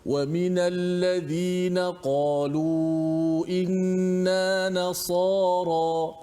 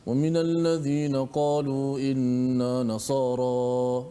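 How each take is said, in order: First: Each letter is articulated distinctly with an open mouth. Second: The letters blur together with a barely opened mouth. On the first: The speaker calls it right. "Lain. Sad dengan nun lain" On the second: The speaker calls it wrong. "dia macam malas nak buka mulut"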